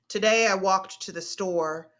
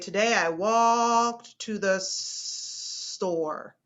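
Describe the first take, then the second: First: The word 'store' is said at normal length. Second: The start of 'store' is drawn out long.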